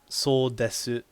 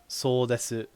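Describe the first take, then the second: The two takes are said the same way.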